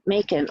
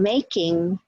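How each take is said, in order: First: The ending is reduced to a short 'in'. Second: The ending is said as a full 'ing'. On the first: "we say makin'" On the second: "instead of saying making"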